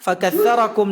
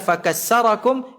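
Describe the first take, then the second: First: The middle consonant is a soft 'th' sound. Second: The middle consonant is a plain 's' sound. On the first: The speaker calls it right. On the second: The speaker calls it wrong.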